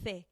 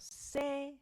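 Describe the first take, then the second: First: The first consonant is a th sound. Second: The first consonant is an s sound. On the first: This is how it is said in most of Spain. "if you are in most of Spain, it will actually sound more like a th" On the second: This is how it is said in Latin America and southern Spain. "If you're in Latin America and the south of Spain, it sounds more like an S"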